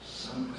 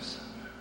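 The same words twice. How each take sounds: First: Somewhere sung out high; high, yearning somewhere; high call. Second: Somewhere breathed as a whisper; hushed whispered somewhere; whispered echo. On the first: Repeated word, first high. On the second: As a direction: whisper somewhere back softly. Repeated word, echoed whisper. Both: Shown as a demonstration.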